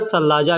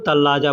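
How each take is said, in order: First: The word begins with a th-like sound. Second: The word begins with a plain t sound. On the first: This follows the written form. "लिखने में सलाजा लिखा जाता है" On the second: This is the everyday spoken form. "बोलचाल में लोग तल्लाजा कहते हैं"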